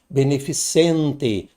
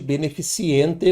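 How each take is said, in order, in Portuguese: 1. Não há som 'ee' extra antes da terminação. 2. Um som 'ee' extra vem antes da terminação. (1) "Grave, bem, para não sair aí um, uma pronúncia equivocada" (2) "Não existe beneficiente no planeta"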